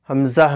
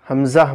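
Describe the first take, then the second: Both takes have the same delivery.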